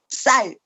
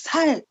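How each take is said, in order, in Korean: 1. '쌀'은 된소리 ㅆ으로 시작해요. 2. '쌀'은 예사소리 ㅅ으로 시작해요. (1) "경상도 사람도 약간 쌀 그렇게 못하고" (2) "살 그러는 사람도 있고"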